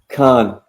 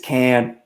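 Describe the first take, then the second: First: It is said with a posh, French-like vowel. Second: It is said with a plain, flat vowel. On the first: This is the fancy way to say it. "if you want to be posh about it, I guess it's con" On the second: This is how the speaker's own community says it. "but for me, it's can"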